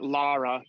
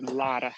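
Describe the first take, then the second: First: The middle consonant is an English R sound. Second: The middle consonant is not an R sound. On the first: The speaker calls it wrong. "not Lara" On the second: The speaker calls it right. "it's not an R sound, ... but Lara"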